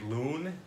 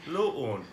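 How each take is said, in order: First: The double vowel is said as one sound. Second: Each of the two vowels is said separately. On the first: "like we would say loon" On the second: "if there's two vowels, you pronounce each one"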